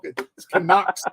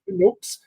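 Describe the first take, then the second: First: The middle vowel sounds like 'uck'. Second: The middle vowel sounds like 'ook'. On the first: The speaker calls it right. "it's C A N U K S" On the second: The speaker calls it wrong. "C A N O O K S"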